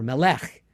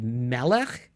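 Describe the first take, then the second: First: Melech stressed me-LECH; last-syllable stress. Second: Melech stressed ME-lech; first-syllable stress. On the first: Teacher offering the alternative stress, melech said me-LECH. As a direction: say melech with weight pushed onto LECH. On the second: Teacher weighing two stresses, melech said ME-lech as a question. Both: Shown as a demonstration. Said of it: "end up stressing, like, is it".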